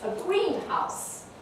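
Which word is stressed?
green. The stress falls on the word green. It is a glass building for growing plants. "a simple noun"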